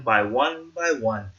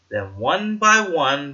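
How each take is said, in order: First: Slow, drawn out, fading. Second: Slow, drawn out. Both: A narrator's reading. Fireflies joining one at a time.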